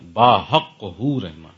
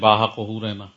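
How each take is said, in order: First: It is read with strong, full articulation. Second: It is read plainly with little emphasis. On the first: The speaker calls it right. "مزہ آیا نہیں آیا" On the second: The speaker calls it wrong. "صرف پڑھیں"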